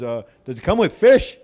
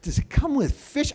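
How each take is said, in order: First: Said in the usual way. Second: High-pitched, incredulous parroting; squeaky mocking repeat; mocking echo. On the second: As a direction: parrot the question back in disbelief. Mocking echo of kid's question.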